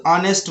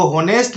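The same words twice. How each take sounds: First: "ऑनेस्ट" with silent h, "on-est"; right demo: "ऑनेस्ट" with no h; correct pronunciation. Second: "होनेस्ट" with the h sounded, "ho-nest"; wrong demo: "होनेस्ट" said as spelt, h included; wrong pronunciation. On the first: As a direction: say "ऑनेस्ट" starting on the vowel. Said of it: "इसको ऑनेस्ट बोलना है". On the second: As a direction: start "होनेस्ट" on an audible h. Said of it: "होनेस्ट नहीं बोलना है". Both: Shown as a demonstration.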